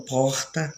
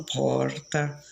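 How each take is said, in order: First: Porta with the Bahian throaty r, poh-ta; Bahian accent. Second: Porta with the São Paulo tapped r, por-ta; São Paulo accent. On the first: Chatting with a local from Bahia, Bahian accent. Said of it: "conversando com uma pessoa daqui". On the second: Chatting with someone from São Paulo, São Paulo accent. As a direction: say porta the paulista way, light r. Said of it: "no sotaque de São Paulo". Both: Shown as a demonstration.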